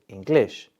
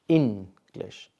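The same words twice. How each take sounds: First: The stress is on the second syllable. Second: The stress is on the first syllable. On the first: The speaker calls it wrong. "if you say English, well, now it doesn't make sense" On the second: The speaker calls it right. "You have to stress the word in, and not glish"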